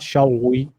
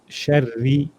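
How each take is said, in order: First: The r is rounded so it sounds like w. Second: The r is a clear, thin tapped r. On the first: The speaker calls it wrong. "not shawwi" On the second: The speaker calls it right. "you're saying uh, sharri"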